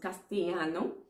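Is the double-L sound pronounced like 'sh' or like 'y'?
y sound. The double-L is said like a 'y' sound. "other persons would pronounce it castellano"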